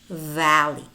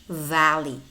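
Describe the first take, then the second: No difference in how they are said.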